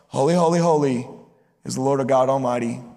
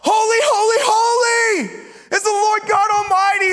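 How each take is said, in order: First: It is said casually, with little energy. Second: It is shouted loudly with great excitement. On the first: They have said it so often it feels routine. The speaker calls it wrong. "it's not like they've been singing it and now they're just kind of like, hey bro" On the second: They are overwhelmed by the greatness of God. The speaker calls it right. "the Bible says that they yell it. They shout it back and forth so loud"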